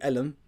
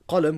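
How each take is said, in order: First: The word begins with a glottal stop. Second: The word begins with a deep q sound. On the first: This is the Egyptian dialect form. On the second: This is the standard form.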